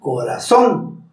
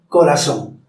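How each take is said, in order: First: The stress falls on the last syllable. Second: The stress falls before the last syllable. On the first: The speaker calls it right. "se sube la voz en son" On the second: The speaker calls it wrong. "no se dice"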